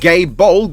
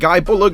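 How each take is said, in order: First: The first syllable sounds like 'gay'. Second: The first syllable sounds like 'guy'. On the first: The speaker calls it wrong. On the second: The speaker calls it right.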